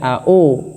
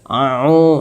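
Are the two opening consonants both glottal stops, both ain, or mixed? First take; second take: both hamzah; both ain. First: Both syllables start with a plain glottal stop. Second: Both syllables start with a throaty ain. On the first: "jangan au. Au sama-sama hamzahnya" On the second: "kadang-kadang malah sama-sama ainnya. ... itu enggak betul"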